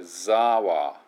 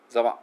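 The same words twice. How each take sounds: First: "ザワ" with a stretched ザー; long za. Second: "ザワ" with a short ザ. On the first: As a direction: lean into a long ザ in "ザワ". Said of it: "ザーっていうのがちょっと長い". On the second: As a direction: clip the ザ in "ザワ", as the mistake. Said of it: "じゃなくて". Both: Shown as a demonstration.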